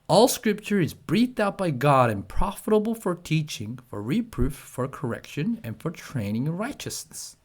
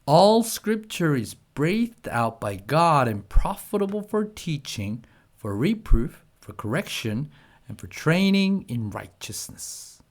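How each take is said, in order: First: It is read at the fastest pace. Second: It is read at a faster pace.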